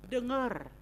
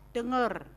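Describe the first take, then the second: No difference in how they are said.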